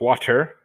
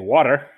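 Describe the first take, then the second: First: It is said in a Northern accent, with a T. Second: It is said in a Southern accent, with a D.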